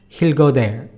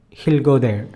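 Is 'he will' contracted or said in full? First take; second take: contracted; contracted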